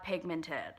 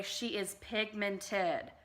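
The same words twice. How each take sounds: First: Said in the usual way. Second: Slow, drawn-out stress on pigmented; drawn-out quote. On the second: Retold or imitated. Quoting Manny MUA to viewers, pigmented drawn out slowly. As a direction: stretch out pigmented long and slow, falling at the end. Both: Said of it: "In the words of Manny M U A".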